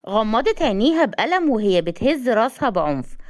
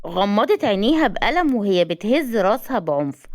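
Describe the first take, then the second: No difference in how they are said.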